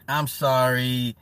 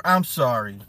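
First: Slow, insincere "I'm sorry"; slow mock apology. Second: Said in the usual way. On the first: Shown as a demonstration. Apologizing to chat for mocking a dude, slowly and insincerely. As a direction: draw out "I'm sorry" slowly, not meaning it. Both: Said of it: "Not sorry".

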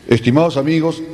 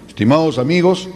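First: Said in the usual way. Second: Speaking with a smile; smiling. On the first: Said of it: "se ponían serios". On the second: Shown as a demonstration. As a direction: smile through the words. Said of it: "hoy sonríe".

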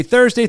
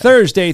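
First: Thursday repeated higher and rising; emphatic. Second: Thursday punched loud and falling; emphatic. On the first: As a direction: say Thursday again, pitched up. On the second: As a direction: hammer the word Thursday home. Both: Shown as a demonstration. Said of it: "I'm gonna keep saying this".

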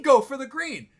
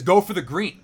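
First: High-pitched, exasperated repeat of the order; incredulous echo. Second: Brisk, louder order at normal pitch; caddy's instruction. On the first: Golfer questioning his caddy's advice, incredulous. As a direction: throw the words back in disbelief. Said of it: "What do you mean". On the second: Caddy handing over a seven iron, confidently instructing. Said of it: "hands me my seven iron and says". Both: Retold or imitated.

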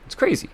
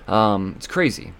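First: It's crazy jumps up into a high squeak; squeaky high. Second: Said in the usual way. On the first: Real, not acted. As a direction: squeak out crazy in a much higher voice. Repeats phrase, second time squeaked.

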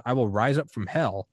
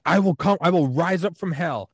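First: Understated stern German father, usual pitch; mildly retold yelling. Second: High, louder mock threat; stuffy German father. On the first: German father threatening his son, mildly retold yelling. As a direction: lightly voice a threatening father, without shouting. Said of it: "yelling at his, like, fifteen-year-old son". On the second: Stuffy German father threatening his son, raised mock yell. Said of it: "this stuffy German dude".

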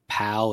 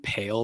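First: "pal" with a short flat a as in cat; pronunciation contrast. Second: "pale" with a long ay vowel; pronunciation contrast. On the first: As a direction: say "pal" with the short vowel, set against "pale". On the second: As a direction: say "pale" with ay, set against "pal". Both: Shown as a demonstration. Speaker showing two words that get merged, contrasted pronunciation. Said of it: "pronouncing, like, pal and pale".

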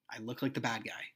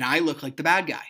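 First: Much softer, resigned repeat; quiet resignation. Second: Louder, emphatic complaint; loud frustration. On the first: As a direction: let it sink to a low volume. Same line repeated, dropping away. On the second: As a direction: push it out, exasperated. Frustrated repeat, first take forceful. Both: Retold or imitated.

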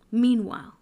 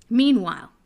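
Both takes have the same delivery.

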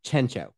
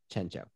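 First: Chencho said as chen-cho, ch sound; Chencho pronounced. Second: Chencho said as shen-cho, much softer; quiet Chencho. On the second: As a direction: murmur Chencho with a soft sh. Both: Shown as a demonstration. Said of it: "his name was Chencho".

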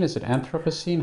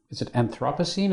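First: Anthropocene with a reduced second syllable, stressed on AN; first-syllable stress. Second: Anthropocene with a full "THROP", stressed on the second syllable. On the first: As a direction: say Anthropocene as AN-thruh-puh-seen. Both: Shown as a demonstration. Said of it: "how does one pronounce it exactly".

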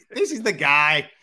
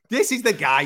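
First: Slow, loud, emphatic declaration; excited praise. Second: Higher, loud excited cry; excited praise. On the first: Host hyping up Derek Lewis, slow and loud. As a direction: spell it out, each word landing loud. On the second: Host hyping up Derek Lewis, higher and loud. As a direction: lift it up in delight. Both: Retold or imitated. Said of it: "I'm like".

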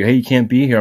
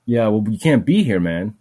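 First: Barked warning, louder and higher; mock guard shout. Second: Said in the usual way. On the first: Old security guard shouting at the limping speaker, mock yell. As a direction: play the old guard yelling him off.

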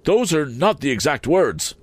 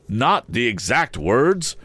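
First: High, fussy Mr Wopsle voice; pompous Wopsle. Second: Slow, bitter repeat. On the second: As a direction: throw it back bitterly. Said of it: "repeated the gentleman bitterly". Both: A narrator's reading.

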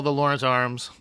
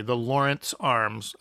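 First: Said in the usual way. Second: Said clearly. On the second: Shown as a demonstration. Correcting himself for the listener, slow and clear. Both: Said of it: "sorry, I said that a little unclearly".

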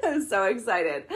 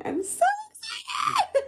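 First: Giggling through the words; laughing. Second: High, squealing burst of joy; excited squeal. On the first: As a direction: laugh while you say it. Repeats it laughing. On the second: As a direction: shriek it with delight. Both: Real, not acted.

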